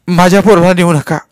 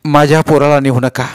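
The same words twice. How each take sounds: First: Loud, high mother's wail; distraught mother at full pitch; screaming plea. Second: Raised, pleading mother's cry; distraught mother pleading; wailing plea. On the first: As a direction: cry out desperately for your child. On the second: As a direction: beg for your child, holding some back. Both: A narrator's reading. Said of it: "आरडू ओरडू लागली".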